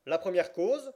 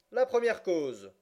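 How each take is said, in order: First: Loud, high call with rising end; judge calling a case. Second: Slow, loud, high call with falling end; judge resuming. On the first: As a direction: call it out as a question, pitch lifting. Judge calls the first case. (appel sonore du juge, ton montant) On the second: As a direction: announce it slowly and firmly, pitch dropping at the close. Judge calls the case once more. (appel lent et sonore, ton descendant) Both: A narrator's reading.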